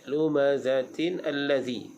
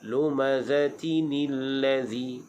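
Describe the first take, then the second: First: The n stays separate before the next word. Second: The n runs into the next word with i. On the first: The speaker calls it wrong. "Itu salah" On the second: The speaker calls it right.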